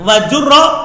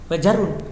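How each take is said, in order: First: The word is said with vowels a-u and final -a. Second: The word is said with vowels a-a and final -un. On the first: The speaker calls it right. "bisa dibaca wajurro bil kasroti" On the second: The speaker calls it wrong. "bukan wajarun"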